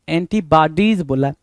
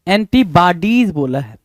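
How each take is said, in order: Both takes have the same delivery.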